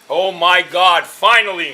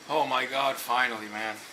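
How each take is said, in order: First: It is said louder, with more energy. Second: It is said at normal, quieter volume.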